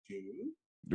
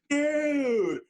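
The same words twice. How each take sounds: First: It is said in a nervous, wary tone. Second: It is said in an excited tone.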